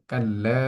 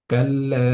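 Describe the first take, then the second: First: Said in the usual way. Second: Kalla chanted, লা held one alif, louder; sung, recited with madd. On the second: Shown as a demonstration. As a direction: sing Kalla stretching the লা. (sung, কাল্লা শব্দে লা এক আলিফ টেনে সুরে) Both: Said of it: "লামের মধ্যে এক আলিফ পরিমাণ টেনে পড়ছি".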